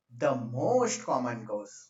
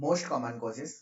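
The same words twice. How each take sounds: First: "most common cause" drawn out very slowly; slow dictation. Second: Said in the usual way. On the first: Real, not acted. Dictating while writing it out.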